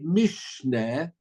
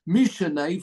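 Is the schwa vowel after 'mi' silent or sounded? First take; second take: silent; sounded. First: The schwa is silent, with no vowel there. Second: The schwa is sounded as a short vowel. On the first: It sounds like a form of the word Mishnah. The speaker calls it wrong. "If you'd say mishneh, it's like it's the word Mishnah" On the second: It comes from the verb root with a prefix. The speaker calls it right. "This one actually is Mishane"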